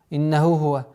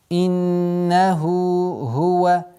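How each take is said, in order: First: The two h sounds run together into one. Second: Both h sounds are pronounced clearly and separately. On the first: The speaker calls it wrong. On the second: The speaker calls it right.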